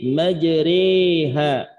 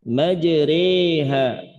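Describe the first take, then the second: The two takes are said the same way.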